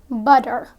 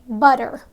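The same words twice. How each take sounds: Both takes have the same delivery.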